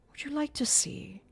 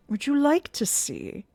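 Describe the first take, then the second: First: Whispered sinister offer; taunting whisper. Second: Said in the usual way. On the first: A narrator's reading. Eric taunting Christine, whispered. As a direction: breathe it as a threat.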